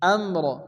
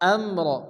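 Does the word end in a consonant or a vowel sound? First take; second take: consonant; consonant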